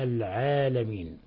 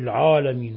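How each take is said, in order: First: The long 'a' is light and thin. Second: The long 'a' is heavy and darkened. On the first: The speaker calls it right. "وإنما العالمين" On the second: The speaker calls it wrong. "لا نقول العالمين"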